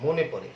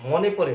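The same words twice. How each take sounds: First: মনে with rounded "o", "mo-ne"; correct closed vowel. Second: মনে with open "aw", "maw-ne"; wrong vowel demo. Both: Shown as a demonstration. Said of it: "মনে পড়ে বলে নাই".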